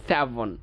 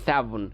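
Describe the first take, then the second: First: "সেভেন" said with a hard b, "seben"; wrong pronunciation. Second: "সেভেন" said with a v, "sevən"; correct pronunciation. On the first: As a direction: show the mistaken b in "সেভেন". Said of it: "it's not সেভেন". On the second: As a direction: model the v sound in "সেভেন". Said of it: "এটা হবে সেভেন". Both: Shown as a demonstration.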